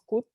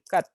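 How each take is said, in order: First: The vowel sounds like a plain u. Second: The vowel sounds more like an a. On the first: "decimos cut por lo general" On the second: "el británico va a decir, eh, va a decir cat"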